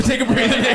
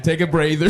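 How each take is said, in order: First: Repeated through a laugh, higher. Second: Said in the usual way. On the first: Shown as a demonstration. Host repeating himself to the guest, laughing. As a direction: laugh it out the second time. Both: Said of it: "Get your beer. Go ahead".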